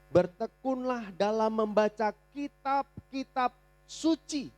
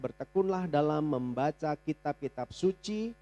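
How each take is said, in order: First: It is read slowly and deliberately. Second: It is read at a normal pace.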